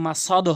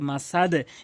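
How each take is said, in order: First: The final d ends without a lowered echo. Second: The final d ends with a lowered echo. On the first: The speaker calls it wrong. "এখানে কিন্তু মাসাদ হবে না" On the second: The speaker calls it right. "দালটির নিচের দিকে সাউন্ড মাসাদে"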